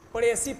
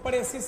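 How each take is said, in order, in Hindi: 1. इस शब्द के आखिर में s की आवाज़ नहीं है। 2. इस शब्द के आखिर में s की आवाज़ है। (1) "प्रेसी पढ़ेंगे इसको" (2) "प्रेसिस नहीं, एस साइलेंट है"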